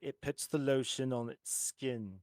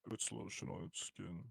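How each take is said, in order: First: Said in a cartoonish comedic character voice. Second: Said in a creepy, menacing villain voice. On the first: It imitates a cartoon parody of the line. "I used to say it like they say in Family Guy" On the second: It imitates the original film delivery. "But the real one is like"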